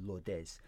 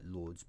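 First: The name is said with a Spanish pronunciation. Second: The name is said with an English pronunciation. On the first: "pronounced in the Hispanic pronunciation" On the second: "spelt like Lourdes"

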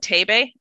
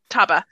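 First: The name ends with an 'ay-bee' sound. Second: The name ends with an 'ah' sound. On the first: The speaker calls it wrong. "I was pronouncing it wrong. I was saying Taibe" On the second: The speaker calls it right. "oh, you mean Taba. So I'm like, it's Taba"

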